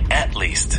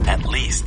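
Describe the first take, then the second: First: The stress falls on the word at. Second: The stress falls on the word least. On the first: The speaker calls it wrong. "Don't never say" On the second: The speaker calls it right. "It's always"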